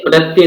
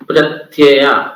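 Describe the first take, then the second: First: The word ends in a short vowel. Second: The word ends in a long vowel. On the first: The speaker calls it wrong. "प्रत्यय नहीं है" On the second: The speaker calls it right.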